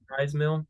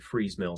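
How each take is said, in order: First: The first word rhymes with 'rise'. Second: The first word rhymes with 'breeze'. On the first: This is how the speaker said it before. The speaker calls it wrong. "pronounced it Fries Mill. Um, I believe I was incorrect in it" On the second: This is how many other people say it. The speaker calls it right. "I've heard a lot of people calling it Freeze Mill"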